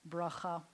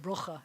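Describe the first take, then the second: First: It is said with a non-Ashkenazic pronunciation. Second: It is said with an Ashkenazic pronunciation.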